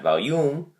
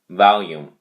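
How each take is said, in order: First: The stress is on the second syllable. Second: The stress is on the first syllable. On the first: The speaker calls it wrong. "not volume" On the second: The speaker calls it right. "the emphasis on the first syllable"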